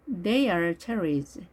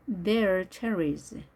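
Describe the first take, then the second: First: THEY ARE as two separate words; careful model reading with a distinct "are"; full form. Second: "They are" merged into one syllable, like they're; slow model reading, contracted "They are"; contracted form. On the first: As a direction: say "They are" uncontracted, slowly. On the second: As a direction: run "They are" together as "there". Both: Shown as a demonstration.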